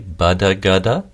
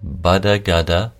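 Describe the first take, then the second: No difference in how they are said.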